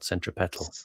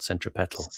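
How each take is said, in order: First: The stress is on the third syllable. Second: The same.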